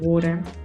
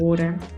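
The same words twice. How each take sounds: First: The middle consonant is a quick d-like tap. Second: The middle consonant is a quick d-like tap.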